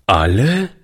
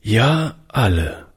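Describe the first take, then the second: First: Put-on astonished rising question from the boy; wondering child's echo; surprised boy. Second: Said in the usual way. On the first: A narrator's reading. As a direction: ask it in disbelief, voice lifting. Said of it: "fragte der Junge verwundert". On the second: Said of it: "sagte Oliver".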